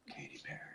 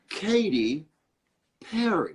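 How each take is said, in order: First: It is said in a sexy, breathy whisper. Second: It is said in a normal speaking voice.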